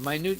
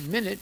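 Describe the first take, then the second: First: The stress is on the second syllable. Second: The stress is on the first syllable. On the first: Something is very small. "Minute means something short or or little" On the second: It is a period of time. "minute means a, a period of time"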